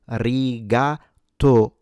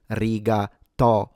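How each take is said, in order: First: "rigatoni" slowly with a closed o in to. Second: "rigatoni" with an open o, like "aw", in to; non-standard "rigatoni", to with open o. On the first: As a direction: break up "rigatoni", rounding a closed o. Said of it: "is an closed O". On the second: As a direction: break up "rigatoni", opening the o. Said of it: "with an open O". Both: Shown as a demonstration.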